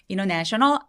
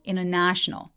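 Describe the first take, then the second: First: The 'na' syllable is not clearly stressed. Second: The 'na' syllable is clearly stressed. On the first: The speaker calls it wrong. "international 아니고" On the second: The speaker calls it right. "international도 international 해서 네만 잘 들리고요"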